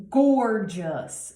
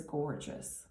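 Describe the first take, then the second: First: GORGEOUS punched loud and drawn out; GORGEOUS stretched for emphasis; emphatic GORGEOUS. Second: Said in the usual way. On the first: Real, not acted. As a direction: lean hard on the first syllable of GORGEOUS.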